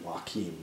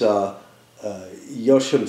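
First: The name is said with a Spanish pronunciation. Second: The name is said with a non-Spanish pronunciation. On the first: The speaker calls it wrong. "in the Spanish, the Joaquin" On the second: The speaker calls it right. "I think that's the proper pronunciation"

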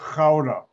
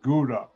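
First: It is said with a Dutch pronunciation. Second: It is said with an American pronunciation. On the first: "It's pronounced Gouda" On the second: "Americans pronounce it Gouda"

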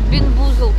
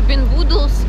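First: The name ends with a 'zld' sound. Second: The name ends with a 'dls' sound. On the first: "Бинбузлд, по-моему, правильно" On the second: "Или Бинбудлс, кто как говорит"

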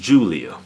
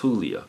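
First: The name is said with an English pronunciation. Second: The name is said with a Spanish pronunciation. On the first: The person named is not Hispanic. "If it's just some white woman named it's Julia" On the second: The person named is Hispanic. "If she's Hispanic, it's Julia"

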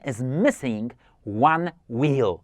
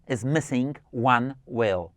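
First: The vowel in "wheel" is long and wide. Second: The vowel in "wheel" is short, like "will". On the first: The speaker calls it right. "Ono jest takie wydłużone, mocne, szerokie" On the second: The speaker calls it wrong. "Dobrze powiedziałem? Źle, specjalnie"

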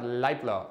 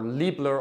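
First: The name is pronounced with German sounds. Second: The name is pronounced with American English sounds. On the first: "that's the German pronunciation" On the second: "these are American guys, so ... Liebler or Leibler is probably okay as well"

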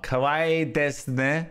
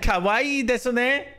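First: The final u of desu is dropped. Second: The final u of desu is clearly voiced. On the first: "There we go. There's no U" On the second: "That's what I said!"

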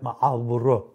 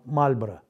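First: The name is said with a drawn-out Avar-style accent. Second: The name is said in standard Russian pronunciation.

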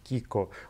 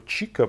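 First: The name begins with a 'k' sound. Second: The name begins with a 'ch' sound. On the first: The speaker calls it right. "Правильно, мол, произносить Kiko" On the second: The speaker calls it wrong. "Chico произносить неправильно"

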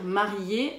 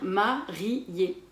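First: The vowels 'ié' are joined in one syllable. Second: The vowels 'i' and 'é' are split apart. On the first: "Au lieu de dire marié" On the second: "on va dire marié"

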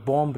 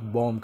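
First: A b sound is heard at the end. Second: No b sound is heard at the end. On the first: The speaker calls it wrong. "आप बॉम्ब नहीं कह सकेंगे" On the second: The speaker calls it right. "आप बॉम्ब कहेंगे"

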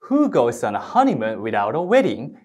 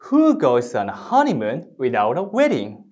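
First: The sentence is said fast. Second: The sentence is said slowly.

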